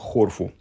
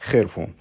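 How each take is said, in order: First: The first vowel sounds like 'o'. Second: The first vowel sounds like 'e'. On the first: The speaker calls it wrong. "почему-то прочитал как хорфу" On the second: The speaker calls it right. "там даже надо читать"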